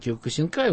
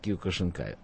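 First: The consonant before 'in' is a plain s. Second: The consonant before 'in' is a sh sound. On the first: This is how it is said in Japan. "в Японии киокусинкай" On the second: This is how it is said in Russia. "у нас говорят киокушинкай"

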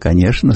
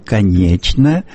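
First: The middle consonant is an sh sound. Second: The middle consonant is a ch sound. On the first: This is the Moscow way of saying it. "А москвичи говорят" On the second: This is the Petersburg way of saying it. "Говорят в Петербурге не только «что», но и «конечно»"

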